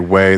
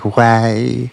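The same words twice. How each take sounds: First: The word is said with a plain, ordinary vowel. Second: The word is said with a stylized, distorted vowel. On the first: "they don't say way" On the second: "they say way"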